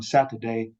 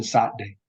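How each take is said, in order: First: "Saturday" in three full syllables, middle t sounded; general pronunciation. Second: "Saturday" squeezed to two syllables with a glottal stop; broad pronunciation. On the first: Lecturer contrasting general with broad, full "Saturday". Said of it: "going from left to right". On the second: Lecturer contrasting broad with general, glottal "Saturday". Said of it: "So it has a glottal stop". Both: Shown as a demonstration.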